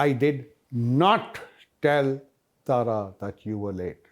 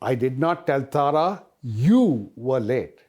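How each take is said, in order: First: The stress is on the words did not. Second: The stress is on the word you. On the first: The denial is absolute. "I'm being more emphatic. Absolutely did not tell her" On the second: Someone else was said to be late. "I said that Bala was late"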